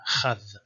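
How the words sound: The word starts with a rough kh sound. This is the Eastern tradition.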